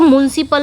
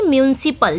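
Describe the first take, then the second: First: म्युनिसिपल said as mun-sipal, with no yu sound after the m; the wrong take of म्युनिसिपल, clipped to mun-sipal; wrong pronunciation. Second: म्युनिसिपल said as myu-ni-sipal, with a clear yu after the m; the corrected take of म्युनिसिपल, myu-ni-sipal; correct pronunciation. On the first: (गलत उच्चारण, म्युनिसिपल को मुन-सिपल बोलना) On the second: (सही उच्चारण, म्युनिसिपल को म्यु-नि-सिपल बोलना) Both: Shown as a demonstration. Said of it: "म्युनिसिपल नहीं".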